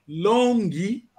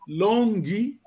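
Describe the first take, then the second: The two takes are said the same way.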